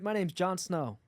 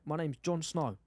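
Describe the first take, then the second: First: It is spoken in an American accent. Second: It is spoken in a South African accent. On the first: "can you do American?" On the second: "South African"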